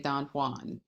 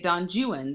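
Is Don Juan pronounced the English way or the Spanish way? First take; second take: Spanish; English. First: It is pronounced the Spanish way. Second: It is pronounced the English way. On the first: "they don't say Don Juan" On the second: "they say Don Juan"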